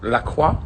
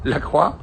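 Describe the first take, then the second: First: The name is said with French sounds. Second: The name is said with French sounds.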